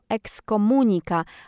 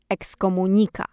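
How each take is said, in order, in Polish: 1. Akcent pada na trzecią sylabę. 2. Akcent pada na czwartą sylabę. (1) "jak prawidłowo akcentować to słowo. Jest to" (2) "a nie"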